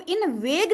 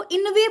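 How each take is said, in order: First: इनवेग with a hard g sounded at the end; mispronunciation demo. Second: इनवे ending on an open "vey", no g; silent GH. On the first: Teacher showing students the misreading, इनवेग ending in a sounded g. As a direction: say इनवेग, voicing the final g. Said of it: "ये इनवेग नहीं पढ़ते हैं". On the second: Teacher showing students the reading, इनवे with no g sound. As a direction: say इनवे with the final gh left silent. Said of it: "इसको इनवे पढ़ते हैं". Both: Shown as a demonstration.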